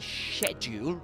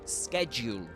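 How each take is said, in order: First: The word is said in a British accent. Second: The word is said in an American accent. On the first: "in British English, you say schedule" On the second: "You actually say schedule in American English"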